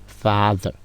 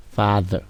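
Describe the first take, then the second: No difference in how they are said.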